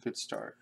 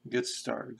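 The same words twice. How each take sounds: First: Low, playful repeat; deep joke voice. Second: Said in the usual way. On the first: Pretend. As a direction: drop the voice way down. Repeated phrase, deep second take.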